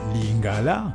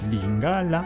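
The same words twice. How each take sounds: First: The stress is placed the French way. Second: The stress is placed the native Lingala way. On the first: The speaker calls it wrong. "comme certains essayent de prononcer à la française" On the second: The speaker calls it right. "l'accent tonique tombe"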